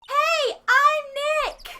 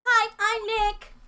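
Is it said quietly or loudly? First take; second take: loudly; quietly. First: It is said loudly. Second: It is said quietly.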